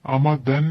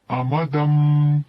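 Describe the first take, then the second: First: Said in the usual way. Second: अमदम slow and louder, ending in m; n turned to m. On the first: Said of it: "नहीं पढ़ेंगे". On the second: Shown as a demonstration. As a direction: drag अमदम out with the final m. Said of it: "अमदन नहीं पढ़ेंगे". (अमदम धीरे, मीम के साथ)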